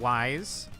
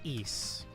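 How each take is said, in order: First: The name sounds like the word wise. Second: The name does not sound like wise. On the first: The speaker calls it wrong. "so you would think Wise" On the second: The speaker calls it right. "but it's Ys"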